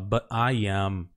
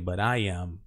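First: The T is cut off with a stop. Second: The T links smoothly into the next word. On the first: "Ele bota um, um stop T ali. Ele fala but I am" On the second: "Mas você pode conectar. Eu conectaria"

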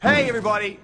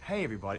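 First: It is yelled very loudly. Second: It is said too quietly.

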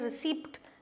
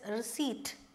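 First: A p sound is pronounced before the final t. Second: No p sound is pronounced before the t. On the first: The speaker calls it wrong. "You don't say receipt" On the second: The speaker calls it right. "this P is silent. ... it is receipt"

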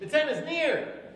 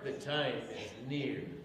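First: It is said with resounding hope. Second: It is said in an ominous tone.

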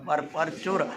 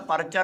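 First: It is said in two parts as par chur. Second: It is said run together as parchar. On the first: This is how the text should be recited. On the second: This is how people locally say it. "ਇੱਥੇ ਵਾਲੇ ਤਾਂ ਪਰਚਰ ਹੀ ਕਹਿਣਗੇ"

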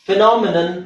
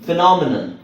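No difference in how they are said.

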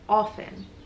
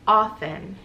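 First: It is said with a British pronunciation. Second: It is said with an American pronunciation. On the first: "with the British accent" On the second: "even in the American pronunciation of it"

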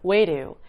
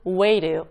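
First: It is said fast with a flapped t. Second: It is said fast with a flapped t.

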